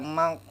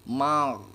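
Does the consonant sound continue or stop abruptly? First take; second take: stops; continues. First: The consonant is cut off abruptly, with no sound. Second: The consonant keeps sounding, with a continuing friction. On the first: The speaker calls it wrong. "Jangan dibaca mak, makdubi" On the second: The speaker calls it right. "Masih kedengaran suaranya ya"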